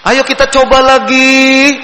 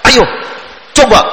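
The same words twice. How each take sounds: First: Slow and higher with a long, stretched ending; a gentle, drawn-out "Ayo kita coba lagi"; kindergarten teacher voice. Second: A curt, hard "Ayo, coba"; short and harsh, like an impatient teacher; harsh command. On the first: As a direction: coax the kids like a gentle preschool teacher. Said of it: "guru-guru T K itu biasanya belakangnya itu panjang terus". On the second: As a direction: snap the order at the child with no warmth. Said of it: "kan kelihatan keras, kasar". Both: Shown as a demonstration.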